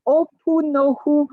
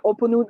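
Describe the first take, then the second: First: "Opunohu" slowly, every syllable sounded; careful pronunciation. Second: "Oponun" run together, last syllables swallowed; fumbled pronunciation. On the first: Shown as a demonstration. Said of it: "ah, not too bad". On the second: Real, not acted. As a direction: stumble through "Oponun" in passing. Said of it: "I'm sorry for my accent".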